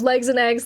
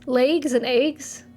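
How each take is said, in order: First: It is said in a plain standard accent. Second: It is said in an imitated regional accent. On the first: This is the usual way to say it. "Instead of" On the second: This is how a childhood friend said it. "My best friend growing up said"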